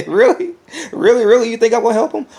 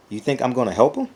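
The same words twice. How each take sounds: First: Much higher, louder laughing disbelief; incredulous laugh. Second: Said in the usual way. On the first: Acted. Vlogger scoffing at helping a rival, high incredulous laugh. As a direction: scoff at the very idea.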